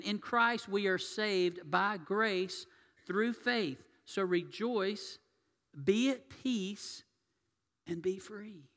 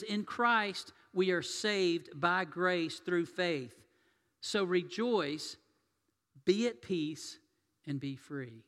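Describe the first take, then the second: First: Slow blessing again, pitched higher with more fervour; preacher repeating the blessing higher and stronger; fervent higher repeat. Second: Slow, deliberate blessing, each phrase weighed; preacher quoting a blessing, slow and measured; slow proclamation. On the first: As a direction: lift the voice and proclaim it with passion. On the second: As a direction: proclaim it slowly from the pulpit. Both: Shown as a demonstration. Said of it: "I'm gonna say that again".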